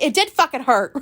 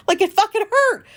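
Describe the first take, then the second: First: Laughing while admitting it hurt; laughing it out, louder; laughing admission. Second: Much higher and louder, insisting it hurt; emphatic insistence. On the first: Retold or imitated. Telling Alicia it hurt, laughing and louder. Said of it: "And I was like". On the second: Real, not acted. Telling the listener how badly it hurt, high loud insistence. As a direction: press hard on the word fucking, up high. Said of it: "I felt embarrassed".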